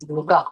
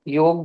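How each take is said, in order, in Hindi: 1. शब्द के अंत में 'a' स्वर है। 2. शब्द के अंत में कोई स्वर नहीं है। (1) "योगा ही सुनते हैं हम यहाँ पे भी।" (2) "योग बोलो तो लोग हमको ऐसे देखते हैं।"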